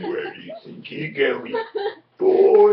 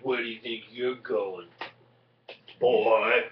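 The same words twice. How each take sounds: First: It is said in a snarly voice. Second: It is said in a plain voice.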